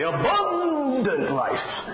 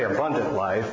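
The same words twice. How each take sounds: First: It is said in a dramatic preacher voice. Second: It is said in a plain, ordinary voice. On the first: "they say abundant life" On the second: "Preachers don't say abundant life"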